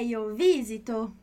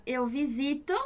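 First: Visito stressed on the first syllable, VI-zi-to; Italian stress. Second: Visito stressed on the middle syllable, vi-ZI-to; Portuguese stress. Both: Shown as a demonstration. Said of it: "Olha a diferença na pronúncia".

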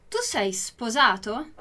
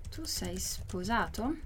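First: Said in the usual way. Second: Soft, slow question for learners; careful, hushed repeat-after-me question; slow model reading. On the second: Shown as a demonstration. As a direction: draw out each word quietly, rising at the end. Teacher repeats it slowly for learners.

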